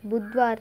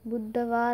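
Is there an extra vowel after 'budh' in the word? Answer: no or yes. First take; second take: no; yes. First: No vowel is said after 'budh'. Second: An extra vowel is said after 'budh'. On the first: The speaker calls it right. "புத்வார் தான் வரும்" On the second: The speaker calls it wrong. "புத்தவார் வராது"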